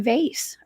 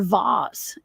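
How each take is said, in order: First: The word is said the plain, everyday way. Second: The word is said the posh, fancy way. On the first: "I say vase" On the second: "as the fancy people say it"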